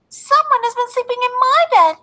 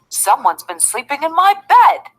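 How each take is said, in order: First: It is said in a tiny, small voice. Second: It is said in a deep, big voice. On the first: "cried out in his wee little voice" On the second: "in his great big voice"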